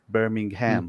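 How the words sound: It is said with an American pronunciation. "in America, you would say Birmingham"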